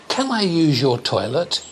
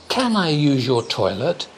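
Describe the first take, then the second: The two takes are said the same way.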